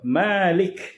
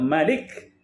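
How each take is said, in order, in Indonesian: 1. Vokal pertama dalam Malik panjang. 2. Vokal pertama dalam Malik pendek. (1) "yang kita baca iaitu Malik" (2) "bacaan kedua Malik, ya, tanpa mad"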